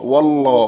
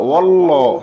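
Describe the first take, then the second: No difference in how they are said.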